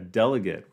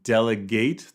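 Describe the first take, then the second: First: The last syllable is reduced, like 'git'. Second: The last syllable rhymes with 'gate'. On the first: It is the noun. "a delegate, which is very similar to delicate" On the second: It is the verb. "to delegate the verb"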